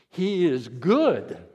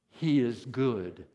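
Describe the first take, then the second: First: The word good is strongly emphasized. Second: The word good carries no special emphasis. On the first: "put the emphasis on good" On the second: "Say that with me"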